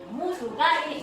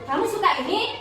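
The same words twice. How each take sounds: First: The voice stays flat or falls at the end. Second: The voice rises higher at the end. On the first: The speaker calls it wrong. "Bukan begitu cara bacanya" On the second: The speaker calls it right. "akhiran kalimatnya ditekankan lebih tinggi suaranya"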